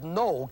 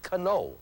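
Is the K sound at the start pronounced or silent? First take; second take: silent; pronounced. First: It starts with an N sound. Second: It starts with a K sound. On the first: The speaker calls it right. "That K does not make a sound here" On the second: The speaker calls it wrong. "You do not say cano"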